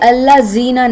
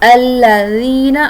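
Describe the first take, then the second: First: The middle consonant is a hard buzzing sound. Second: The middle consonant is a soft, unbuzzed sound. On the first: The speaker calls it wrong. "कभी भी अल्लाह जीना नहीं है" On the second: The speaker calls it right. "बिल्कुल सॉफ्ट होगा"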